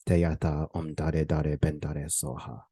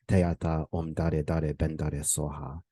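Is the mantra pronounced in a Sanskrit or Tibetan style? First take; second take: Tibetan; Tibetan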